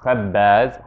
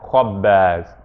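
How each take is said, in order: First: The vowel after kh sounds like a front a. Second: The vowel after kh sounds like a back ah. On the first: The speaker calls it wrong. "not khabbaz" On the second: The speaker calls it right. "it's going to sound ah"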